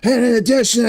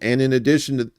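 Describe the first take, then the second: First: Spoken in a put-on voice imitating someone. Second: Spoken in the speaker's ordinary natural voice.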